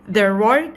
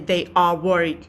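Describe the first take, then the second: First: The two words are contracted into one quick syllable. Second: The two words are said separately in full. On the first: The speaker calls it right. "You have to uh, read it quickly" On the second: The speaker calls it wrong. "Not really they are worried"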